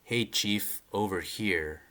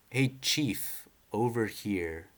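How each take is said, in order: First: Said in the usual way. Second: Character voice. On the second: Retold or imitated. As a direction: give the caller a different voice. Reading a manga character's call.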